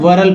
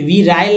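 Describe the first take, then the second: First: The first vowel is a short i. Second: The first vowel sounds like ee. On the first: The speaker calls it right. "मतलब वरल पढ़िए" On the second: The speaker calls it wrong. "वी राइल नहीं पढ़ेंगे"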